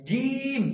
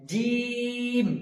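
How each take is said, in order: First: জিম said higher and thin, like a whistle; the faulty thin জিম to avoid; thin wrong jim. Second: জিম chanted heavy with a long vowel; the right heavy জিম, stretched; correct jim. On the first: Teacher shows the thin whistling জিম mistake. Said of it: "জিম যেন না হয়ে যায়". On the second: Teacher gives the correct heavy drawn জিম. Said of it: "জিমে তিন আলিফ টান দিতে হবে". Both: Shown as a demonstration.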